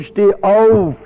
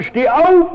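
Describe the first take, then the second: First: Said in the usual way. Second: High, loud bark of a command; father shouting at his tied-up son, loud; roaring at the boy. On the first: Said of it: "sagt dem Jungen". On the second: Retold or imitated. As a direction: yell it at the boy in a drunken rage. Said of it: "dann brüllt er den Jungen an".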